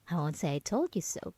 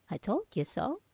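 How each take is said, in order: First: Said in the usual way. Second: Told leaned on, with a smug pause before it; stress on told. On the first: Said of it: "but I told you so". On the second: Acted. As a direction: land on "told" with a gloating lift.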